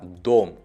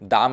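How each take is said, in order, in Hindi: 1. स्वर पूरी 'o' ध्वनि है। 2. स्वर घटकर 'a' ध्वनि हो गया है। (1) "ये होगा दोम" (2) "दाम नहीं होगा"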